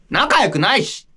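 It is said in a put-on girlish voice.

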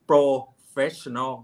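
It is said with a Thai accent. The speaker calls it wrong. "นี่สำเนียงในไทยนะ"

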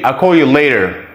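The t in later sounds like a soft d. "But Americans say later"

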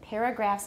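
The first vowel sounds like the vowel in 'air'. The speaker calls it right. "I say paragraphs"

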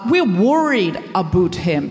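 The Canadian accent is strong and convincing. The speaker calls it right.

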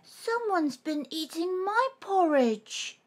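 It is cried in Baby Bear's voice.

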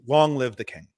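It is proclaimed in a grand, majestic manner.

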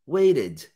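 It is said in an American English accent. "Mas aí o americano vai falar waited"

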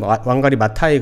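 The name is said with Korean-style pronunciation. This is how it is usually said in Korea. The speaker calls it wrong. "한국에서는 왕가리 마타이 그러는데"

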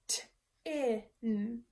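The word is broken into separate sounds. "We're going to break up a word into its parts"

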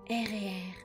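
It is said in a sultry perfume-ad voiceover.

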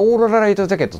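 The name is said in one continuous run. This way the name is harder to say. The speaker calls it wrong. "続けて言うと"

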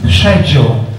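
The word begins with an 'sh' sound. "in the UK it's schedule"

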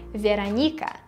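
The name is said with a Russian pronunciation. "in Russian, my name actually sounds like Veronika"

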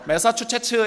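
It is said with a Gyeongsang regional accent. The speaker calls it wrong. "경상도 사람들의 발음의 한계예요"

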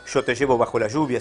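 The y and ll sound buzzy, like sh. This is the local Buenos Aires way of speaking. The speaker calls it wrong. "No sería"

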